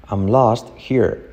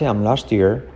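First: "here" with a breathed H, set apart from "lost"; H pronounced. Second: "lost here" linked as "lost-eer"; H skipped. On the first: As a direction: keep the H in "here". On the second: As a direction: drop the H of "here" and join it to "lost". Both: Shown as a demonstration. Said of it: "Saltamos la H".

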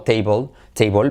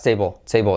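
First: Table as "teibol", O and L both clear; full O sound. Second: Table as "teibo", vowel vanishing into the L; L pulled back. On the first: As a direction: say table with a Spanish-style final L. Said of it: "suena como una O". (table con O y ele claras) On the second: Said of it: "al hacer la L atrás". (table con la ele atrás) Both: Shown as a demonstration.

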